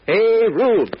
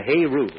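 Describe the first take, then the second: First: High, loud rallying cry; urgent carnival call to arms; shout. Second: Said in the usual way. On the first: Acted. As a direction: shout it across the fairground for help. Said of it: "and then shouts". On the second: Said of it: "there's nothing more important than a".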